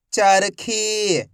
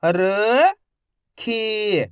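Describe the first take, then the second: First: Whole word in one go, vowels held; syllables joined. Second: Each syllable slowly held, first one rising. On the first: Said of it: "तो मिलके बन जाएगा". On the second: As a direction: break the word into long, separate syllables. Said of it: "एक अक्षर का उच्चारण करके". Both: Shown as a demonstration.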